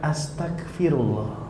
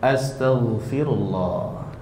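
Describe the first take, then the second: First: The middle consonant is a hard k sound. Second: The middle consonant is a soft throaty gh. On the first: It asks to be made an unbeliever. The speaker calls it wrong. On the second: It asks for forgiveness. The speaker calls it right. "Tetapi benar pelafazannya"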